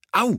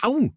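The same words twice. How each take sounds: First: Short, high "ow"; pained yelp. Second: High, teasing mock "ow"; slightly louder yelp. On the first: Nick is grabbed by his teacher, a short high yelp. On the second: Nick repeats his yelp to amuse classmates, slightly louder. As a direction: overplay the pain a little, playfully. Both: A narrator's reading. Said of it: "litt høyere denne gangen".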